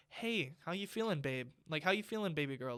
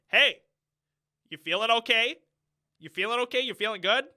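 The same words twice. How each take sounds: First: Softer, caring check-in; showing how a caring father should ask his daughter; tender dad. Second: Loud, flat check-in with no feeling behind it; mock a wooden father asking how she feels; imitating Adam Driver's flat delivery to his daughter; mocking a monotone dad. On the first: Shown as a demonstration. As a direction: ask gently like a loving father. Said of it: "nothing like that". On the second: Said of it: "there's no, like, toning to his voice".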